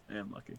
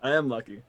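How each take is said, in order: First: Hushed repeat. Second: Said in the usual way. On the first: Acted. Best man agreeing with the groom, hushed. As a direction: lower and far softer, almost to oneself. Same reply repeated under breath.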